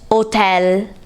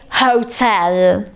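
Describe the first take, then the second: First: The word starts with no H sound. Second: The word starts with an audible H sound. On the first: "we say it hotel without pronouncing the H" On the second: "in English, we um, say hotel"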